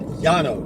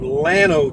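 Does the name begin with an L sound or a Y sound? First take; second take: Y sound; L sound. First: The name begins with a Y sound. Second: The name begins with an L sound.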